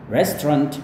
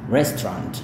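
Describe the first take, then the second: The two takes are said the same way.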